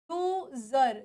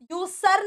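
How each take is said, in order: First: यूजर with a buzzing z, "yoo-zer"; correct pronunciation of user. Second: यूसर with a hissed s sound; wrong pronunciation of user. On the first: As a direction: say यूजर with z, lower and softer. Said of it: "वो ज के form में आ रही है". (यूजर का सही उच्चारण "यूज़र") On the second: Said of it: "यूसर नहीं". (user को गलत "यूसर" बोलते हुए) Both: Shown as a demonstration.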